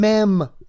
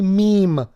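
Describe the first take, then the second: First: The word is said with a short 'eh' vowel. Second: The word is said with a long 'ee' vowel. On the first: The speaker calls it wrong. "when he was trying to say meme" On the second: The speaker calls it right. "trying to say meme"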